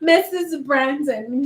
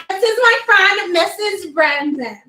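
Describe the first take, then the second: First: Rich-sounding name. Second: High, posh-toned introduction, laughing; laughing as she presents Missus Brandon grandly; fancy rich-sounding name. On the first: Shown as a demonstration. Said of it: "sound like she has money". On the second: Retold or imitated. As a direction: say it like money. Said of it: "Did she just sound like she has money?".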